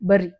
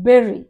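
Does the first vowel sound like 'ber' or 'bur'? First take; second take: bur; ber. First: The first vowel sounds like 'bur'. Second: The first vowel sounds like 'ber'. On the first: The speaker calls it wrong. "బర్రీ అంటాం. ... అది బర్రీ కాదు" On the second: The speaker calls it right.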